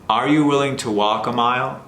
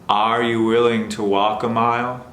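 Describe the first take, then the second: Both takes have the same delivery.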